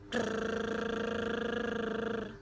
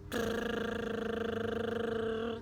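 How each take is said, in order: Both takes have the same delivery.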